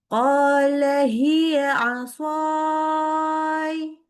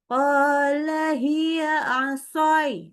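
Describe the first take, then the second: First: The long vowel is held out long. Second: The long vowel is cut short quickly. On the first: The speaker calls it right. "Jadi diperhatikan, jadi panjang" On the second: The speaker calls it wrong. "jangan terlalu cepat, jangan"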